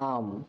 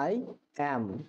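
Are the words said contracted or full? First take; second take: contracted; full. First: The words are joined into one short syllable. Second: Both words are said fully and separately. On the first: "contraction করি তাহলে এটি হয়ে যাবে" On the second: "সাধারণ ইংরেজি হবে I am"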